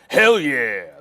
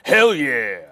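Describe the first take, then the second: First: It is said in a Tropic Thunder impression. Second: The same.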